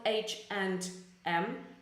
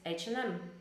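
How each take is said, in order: First: The 'and' is said fully and clearly. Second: The 'and' is reduced quickly to an n sound. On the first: The speaker calls it wrong. "It is not H and M" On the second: The speaker calls it right. "Very very fast. There's the and is it's not very clear. It's like you would have N instead"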